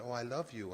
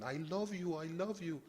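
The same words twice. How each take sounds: First: Said in the usual way. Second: High-pitched imitation of an Urdu accent; broken Urdu accent. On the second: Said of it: "he said in his broken Urdu accent".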